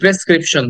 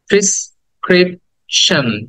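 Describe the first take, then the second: First: The first syllable has the vowel of 'pen'. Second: The first syllable has the vowel of 'pin'. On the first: The speaker calls it wrong. "আমরা এটাকে বলি প্রেসক্রিপশন" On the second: The speaker calls it right. "আসলে উচ্চারণ হবে প্রিস প্রিসক্রিপশন"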